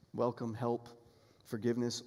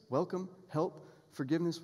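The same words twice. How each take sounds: First: "welcome, help, forgiveness" said as a low falling list. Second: "welcome, help, forgiveness?" asked with a lift on "help"; "help" stressed in a questioning list. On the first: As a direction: lay down "welcome", "help", "forgiveness" as settled facts, each falling. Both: Shown as a demonstration.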